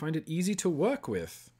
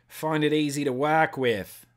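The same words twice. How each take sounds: First: It is said in his ordinary American accent. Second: It is said in an imitated Australian accent.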